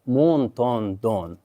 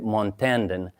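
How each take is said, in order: First: Said the French way, with O vowels throughout. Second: Said the American way. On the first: "the French pronounce this Montandon. So like all O's" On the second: "the Americans say Montandon"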